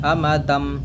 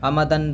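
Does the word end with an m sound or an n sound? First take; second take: m sound; n sound. First: The word ends with an m sound. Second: The word ends with an n sound. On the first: The speaker calls it right. "नून को मीम से बदल करके पढ़ेंगे" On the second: The speaker calls it wrong. "फिर वो गलत हो जाएगा"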